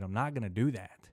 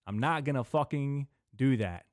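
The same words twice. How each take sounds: First: Said in the usual way. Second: "not" punched louder and higher; stress on not. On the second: Shown as a demonstration. Refusing the George Lopez plan to listeners, stress on "not". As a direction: hammer "not" to make it final.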